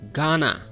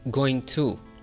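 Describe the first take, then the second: First: The phrase is reduced to one short word. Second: Both words are said in full. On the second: "like going to"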